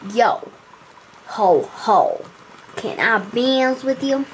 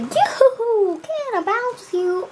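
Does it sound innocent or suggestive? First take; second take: suggestive; innocent. First: It sounds suggestive and not nice. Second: It sounds innocent and playful.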